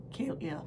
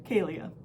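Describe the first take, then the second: First: Voice cracking. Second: Said in the usual way. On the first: Real, not acted. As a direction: voice cracks on the name, softer. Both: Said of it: "Sorry, my voice cracked".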